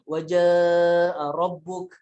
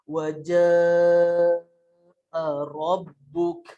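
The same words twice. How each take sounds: First: It is recited fast. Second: It is recited slowly.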